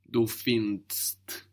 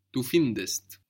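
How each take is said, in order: First: "Du findest" slowly, no E before the crowded final DST; ST without E. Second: "Du findest" with an E sounded before ST; EST ending. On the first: Teacher showing it's too complicated, ST without E. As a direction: cram "findest" into one syllable, ending in DST. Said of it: "we can't add the S T". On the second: Teacher showing the helping E, EST ending. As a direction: say "findest" in two syllables, fin-dest. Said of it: "you are adding E S T". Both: Shown as a demonstration.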